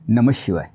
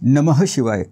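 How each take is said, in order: First: The visarga is said as a half sh sound. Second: The visarga is said as a full h breath. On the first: The speaker calls it right. "शचा उच्चार अर्धा करायचा आहे" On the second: The speaker calls it wrong. "असं नाही"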